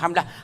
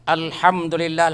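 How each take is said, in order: First: The word is rushed and shrunk to two syllables. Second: The word is said with all its syllables.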